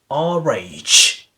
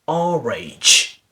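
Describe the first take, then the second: First: An r sound links the two words. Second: An r sound links the two words.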